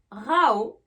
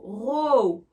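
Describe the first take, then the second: First: Rao said with an open "a-o" glide, loud; "ow" vowel. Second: Row rhyming with go, drawn out; long "o" vowel. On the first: Teacher giving the verb disputer, loud "ow" in rao. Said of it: "Avec le son A O". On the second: Teacher giving the word for rang, long "oh" in row. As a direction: stretch the "oh" in row. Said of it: "avec le son O". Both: Shown as a demonstration.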